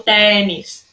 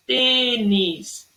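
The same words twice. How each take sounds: First: TÊNIS mispronounced with open é, "TEH-nis"; wrong open E. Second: TÊNIS slowly, long closed ê. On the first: Teacher showing pupils what not to say, TÊNIS with open é. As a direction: open the first vowel of TÊNIS wide. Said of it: "eu não falo tênis". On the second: Teacher sounding out the accent for pupils, TÊNIS with long closed ê. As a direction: hold the closed ê of TÊ-nis. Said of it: "Eu tenho um acento circunflexo no E". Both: Shown as a demonstration.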